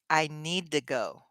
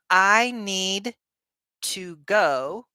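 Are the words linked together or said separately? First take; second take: linked; separate. First: The words run together in one smooth chunk. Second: Each word is said separately and distinctly. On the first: The speaker calls it right. "you're putting these words together, you're connecting them" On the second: The speaker calls it wrong. "Instead of"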